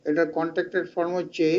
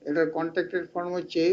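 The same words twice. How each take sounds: No difference in how they are said.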